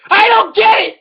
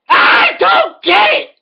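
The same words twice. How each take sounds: First: Frustrated. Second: Higher, slower, shouted repeat; frustrated. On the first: Rant, repeated line. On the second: Comedian yelling his confusion about food choices, escalating shout. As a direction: escalate the line into a yell. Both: Real, not acted.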